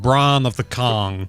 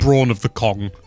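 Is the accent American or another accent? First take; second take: American; another. First: It is said in an American accent. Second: It is said in a non-American accent. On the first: The speaker calls it right. "that sounds so much better in in American English" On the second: The speaker calls it wrong. "rather than the"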